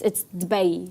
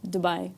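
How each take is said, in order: First: "Dubai" with a short first vowel, "bai" said like "bay"; local Arabic Dubai. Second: "Dubai" said softly the English way, "too-BYE"; [name]'s own Dubai. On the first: Co-host corrects the English pronunciation, local Arabic way. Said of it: "technically supposed to be like". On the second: Co-host admits her own English way, softly. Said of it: "I say". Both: Shown as a demonstration.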